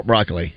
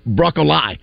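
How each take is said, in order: First: BROCCOLI as BROCK-uh-lee, low and unforced; plain pronunciation. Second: BROCCOLI as BROCK-oh-LIE; new trendy pronunciation. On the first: Host asking how the guys pronounce it, plain pronunciation. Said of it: "how do you guys pronounce". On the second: Host reporting what kids are saying, new trendy pronunciation. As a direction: end BROCCOLI on LIE, rhyming with sky. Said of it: "kids are saying it's actually". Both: Shown as a demonstration.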